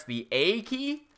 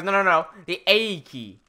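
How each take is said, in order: First: Retold puzzled question, rising on "A key". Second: Put-on slow Australian-accented correction, falling on "A key". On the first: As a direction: ask about "A key" unsurely, pitch climbing to the end. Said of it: "I'm like". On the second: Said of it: "That's why I struggle with this accent".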